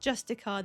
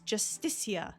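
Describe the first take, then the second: First: The name has no 'ee' sound before the end. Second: The name has an 'ee' sound before the end. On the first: The speaker calls it wrong. "It's not Justicar" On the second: The speaker calls it right. "There's an I in there. It's Justicia"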